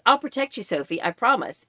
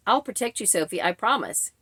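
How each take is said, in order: First: Said in the usual way. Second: Subdued, uninflected machine narrator; flat AI reading. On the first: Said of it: "should have been a, an inflection". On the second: Retold or imitated. Imitating AI reading a man's promise, falling flat. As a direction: read it like text-to-speech, no feeling. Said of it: "It just fell so flat".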